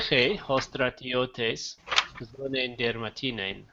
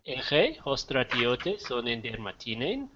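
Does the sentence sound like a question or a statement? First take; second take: statement; question. First: It is said with a statement intonation. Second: It is said with a question intonation. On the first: The soldier has a leather belt. "that's a statement" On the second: Does the soldier have a leather belt? "the intonation would make it a question"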